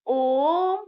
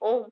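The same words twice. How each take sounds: First: The vowel is drawn out very long. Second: The vowel is said at normal short length. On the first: "ज़्यादा बल देने के लिए, जोर देने के लिए; लंबा खींच के बोलते हैं" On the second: "हम बोलते हैं ओम"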